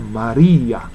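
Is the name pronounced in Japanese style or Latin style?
Latin. It is said with Latin-style pronunciation. The speaker calls it right. "ラテン語ではマリアなんですね"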